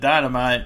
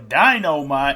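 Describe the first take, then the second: First: The word is said in a plain, ordinary way. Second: The word is said in an exaggerated catchphrase style. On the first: It is the ordinary word. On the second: It imitates a famous catchphrase.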